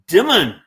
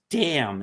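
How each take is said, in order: First: The word is said with a sounded final N. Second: The word is said with a silent final N. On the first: The speaker calls it wrong. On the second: The speaker calls it right.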